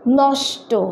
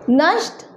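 First: The word ends with an added 'o' vowel. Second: The word ends on a consonant with no vowel. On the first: This is the Bengali pronunciation. "देखिए ये भी same word है, pronunciation में अंतर।" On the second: This is the Hindi pronunciation. "देखिए ये भी same word है, प्रोनाउंसिएशन में अंतर।"

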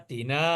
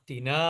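Both takes have the same delivery.

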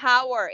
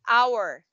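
First: The word starts with an audible h sound. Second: The word starts with no h sound. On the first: The speaker calls it wrong. "You will not say hour" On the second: The speaker calls it right. "it's silent letter H"

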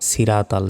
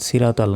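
Both takes have the same delivery.

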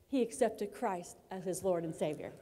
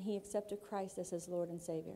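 First: It is said loudly with high energy. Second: It is said calmly with low energy. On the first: The speaker calls it right. "but I want to say it like this" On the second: The speaker calls it wrong. "now I say that like calmly"

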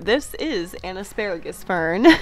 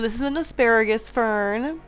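First: Each word is articulated clearly and distinctly. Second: The words run together and are loosely articulated. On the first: The speaker calls it right. "I need to enunciate better" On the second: The speaker calls it wrong. "I need to enunciate better"

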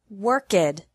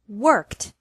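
First: The ending adds an extra syllable, two syllables. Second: The ending is a t sound with one syllable. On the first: The speaker calls it wrong. "and not worked" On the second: The speaker calls it right. "ED is pronounced like T with no extra syllable"

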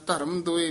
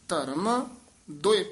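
First: The two words run together without a break. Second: The first word ends with a jolt before the next. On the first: The speaker calls it wrong. "ਧਰਮ ਦੋਏ ਨਹੀਂ ਕਹਿਣਾ" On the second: The speaker calls it right. "ਧਰਮ ਪਦ ਤੇ ਯਮਕ ਲਾ ਕੇ ਉਚਾਰਨ ਕਰਨਾ ਹੈ"

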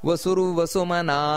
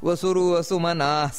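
Both takes have the same delivery.

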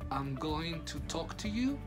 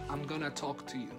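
First: Going to is said as two full words. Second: Going to is reduced to one short word. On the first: "en vez de decir" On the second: "podría decir"

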